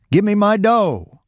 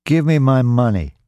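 First: High, drawn-out angry yell; yelled demand. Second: Higher, insistent demand; firm demand. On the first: Robbed man demands his dough from Roy, yelling. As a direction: yell it slowly, pitched far up. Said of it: "he yelled". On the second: Robbed man confronts Roy on the platform, firm demand. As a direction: demand it back, pitched up. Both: A narrator's reading.

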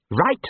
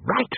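First: Rising, keen agreement; eager. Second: Changed tone. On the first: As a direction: perk up at the idea. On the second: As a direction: let the word turn thoughtful. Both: A narrator's reading. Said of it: "a small but significant change in his tone".

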